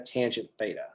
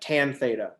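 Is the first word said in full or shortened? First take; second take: full; shortened. First: The first word is said in full. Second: The first word is cut short. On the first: The speaker calls it right. "Say the whole thing" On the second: The speaker calls it wrong. "That's terrible"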